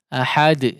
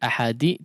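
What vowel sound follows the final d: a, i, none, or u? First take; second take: none; i. First: The final d bounces with no vowel after it. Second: The final d is followed by an 'i' vowel. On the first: The speaker calls it right. "betul-betul sukun" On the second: The speaker calls it wrong. "tidak seperti ahadi"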